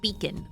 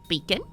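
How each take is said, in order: First: It is said in the speaker's ordinary accent. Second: It is said in a New Zealand accent.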